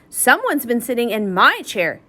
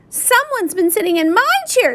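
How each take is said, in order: First: The voice is soft and gentle. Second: The voice is small and high. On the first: A gentle adult female is speaking. "said Mama Bear in her soft voice" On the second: A small child is speaking. "said Baby Bear in his little voice"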